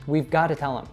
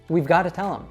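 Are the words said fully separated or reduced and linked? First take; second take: reduced; reduced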